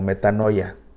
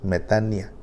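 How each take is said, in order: First: The vowel after 'metan' sounds like 'oy'. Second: The vowel after 'metan' sounds like 'ee'. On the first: "tal vez has escuchado el término como metanoia" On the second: "se pronuncia metania porque Omicron con Y se pronuncia como I"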